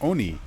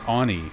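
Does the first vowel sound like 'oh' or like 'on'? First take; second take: oh; on. First: The first vowel sounds like 'oh'. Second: The first vowel sounds like the o in 'on'. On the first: The speaker calls it right. "the same way I say it" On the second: The speaker calls it wrong. "the O in on, like an on switch"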